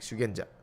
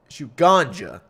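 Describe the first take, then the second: First: It sounds like 'shoo-gen-ja', with 'gen' in the middle. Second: It sounds like 'shoot ganja', with 'gan' in the middle. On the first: This is how the speaker reads it. The speaker calls it right. "that's how I read it" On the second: Someone else said it this way. The speaker calls it wrong. "they would call it shoot ganja"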